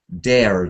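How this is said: The vowel ends with a noticeable R sound. "In New York, it, it gets a bit stronger"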